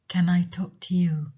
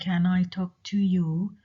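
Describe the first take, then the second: First: The vowel in 'to' nearly disappears. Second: The vowel in 'to' is fully pronounced. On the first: "you say" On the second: "Instead of saying"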